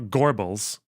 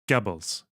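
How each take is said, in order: First: The first syllable has an R sound. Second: The first syllable has no R sound. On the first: The speaker calls it wrong. "It's not Gorbels" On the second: The speaker calls it right. "There's not actually an R there"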